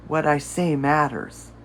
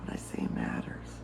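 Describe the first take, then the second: First: Said in the usual way. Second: Whispered affirmation, no voice at all. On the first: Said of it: "say this out loud". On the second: Shown as a demonstration. Coach repeats the affirmation to herself, whispered. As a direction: breathe the words out softly.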